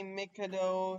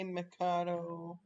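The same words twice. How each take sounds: First: Mikado as "MICK-uh-doh"; first pronunciation. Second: Mikado as "muh-KAH-doh"; second pronunciation. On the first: Player showing what some people say, Mikado as MICK-uh-doh. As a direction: say Mikado with stress on MICK, short i. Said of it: "both ways. Some people say Mikado". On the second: Player showing the other way, Mikado as muh-KAH-doh. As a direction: say Mikado with stress on a long middle KAH. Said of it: "some say Mikado". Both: Shown as a demonstration.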